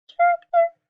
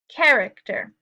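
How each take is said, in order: First: It is said in a mouse voice. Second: It is said in a normal voice.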